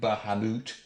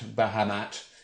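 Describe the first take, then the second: First: The last syllable rhymes with 'moot'. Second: The last syllable rhymes with 'mat'. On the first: This is the original pronunciation. "the original pronunciation is the Moot version" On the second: This is the more common pronunciation today. "the Mat, Bahamat, is more common these days"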